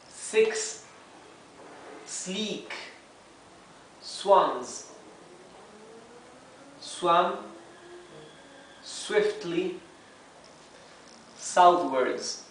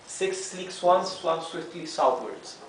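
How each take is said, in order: First: Each word is said separately and slowly. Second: It is said quickly at a faster pace. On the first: "let's begin reading one word at a time" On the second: "Now a bit faster"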